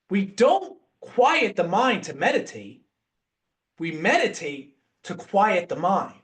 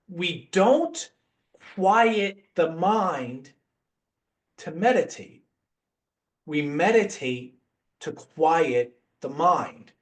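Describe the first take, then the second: First: It is said at normal speed. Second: It is said slowly and deliberately.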